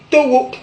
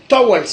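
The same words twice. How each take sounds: First: "towo" ending on an open o; Godié pronunciation. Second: "towels" closing on ls; English pronunciation. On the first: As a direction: say to-wo, no final consonant. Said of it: "et en gaudier". (« towo » à la godié, prononcé to-wo) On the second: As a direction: say to-wels for "towels". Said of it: "en anglais". (« towels » à l'anglaise, finale en ls) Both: Shown as a demonstration.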